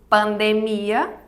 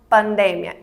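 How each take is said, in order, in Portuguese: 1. Ela tem a acentuação tônica do português. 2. Ela tem a acentuação tônica do espanhol. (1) "seria pandemia em português" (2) "mas em espanhol a gente vai pronunciar pandemia"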